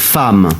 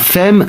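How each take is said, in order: First: The vowel is pronounced like an 'a'. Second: The vowel is pronounced like an 'e'. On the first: The speaker calls it right. "la prononciation c'est A" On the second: The speaker calls it wrong. "C'est pas femme"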